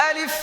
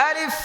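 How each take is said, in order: Both takes have the same delivery.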